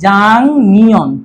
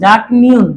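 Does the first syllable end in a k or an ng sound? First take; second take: ng; k. First: The first syllable ends with an ng sound. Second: The first syllable ends with a k sound. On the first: The speaker calls it right. "আমাদের উচ্চারণ হবে কি জাং নিয়ন" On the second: The speaker calls it wrong. "কিন্তু উচ্চারণ হবে না"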